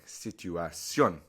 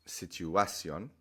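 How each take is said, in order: First: Situación slowly, landing hard on -CIÓN; stress on final syllable. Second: Situación slowly stressed on the A, si-tu-A-cion; wrong natural stress. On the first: Teacher shows the accented form, stress on final syllable. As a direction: say si-tu-a-SYON for situación, weight on the end. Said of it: "You have to change the natural way of the flow". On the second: Teacher shows what not to say, stress on A. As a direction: lean on the A of situación, not the ending. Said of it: "which would kind of be the natural way to say it". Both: Shown as a demonstration.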